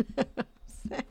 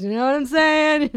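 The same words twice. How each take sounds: First: Breathy laughing repeat; laughing whisper. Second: High, loud rhetorical ask; loud emphatic question. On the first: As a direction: giggle the line out softly. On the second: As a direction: push it at the audience. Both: Real, not acted.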